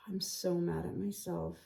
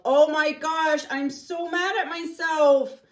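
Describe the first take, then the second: First: Much softer, deflated sigh of "I'm so mad at myself"; sighing self-reproach. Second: Loud, high, slow exasperated cry; real frustration bursting out; mad at myself. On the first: Painter mutters at herself after the mistake, soft and deflated. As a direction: let the anger drain into a sigh. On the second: Painter scolds herself over the mistake, loud and exasperated. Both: Real, not acted.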